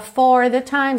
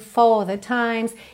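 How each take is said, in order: First: The R in 'for' is clearly pronounced. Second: The R in 'for' is dropped, British style.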